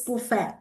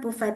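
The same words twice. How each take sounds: First: The word is pronounced the French way. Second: The word is pronounced the English way. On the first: The speaker calls it right. "it's buffet. It's the French word" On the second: The speaker calls it wrong. "It's not buffet"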